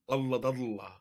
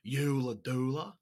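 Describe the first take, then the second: First: It is said with an Arabic accent. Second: It is said with an Australian accent. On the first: "That's the Arabic version" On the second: "the Australian version"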